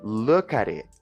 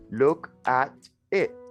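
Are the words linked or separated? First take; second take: linked; separated. First: The words run together smoothly without breaks. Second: Each word is said separately, with breaks. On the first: The speaker calls it right. "For it to sound fluent, we will say look at it" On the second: The speaker calls it wrong. "we don't say look at it. We do not separate every word"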